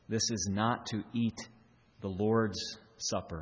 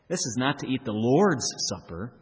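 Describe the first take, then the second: First: The word Lord's carries no special emphasis. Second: The word Lord's is strongly emphasized.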